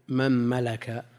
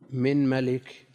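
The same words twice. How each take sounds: First: The first word is said with an a vowel. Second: The first word is said with an i vowel. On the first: "بفتح الميمين" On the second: "بكسر الميم في من وملك أيضا"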